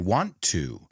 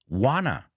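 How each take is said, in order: First: Both words are said fully and separately. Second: The two words blend into one reduced word.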